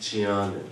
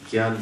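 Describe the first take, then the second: First: The word begins with a 'jny' sound. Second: The word begins with a 'gy' sound. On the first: The speaker calls it right. "Sanskrit के अनुसार वास्तविक उच्चारण क्या है?" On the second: The speaker calls it wrong. "उत्तर भारत में लोग ज्ञान शब्द नहीं बोलते, वो क्या बोलते हैं?"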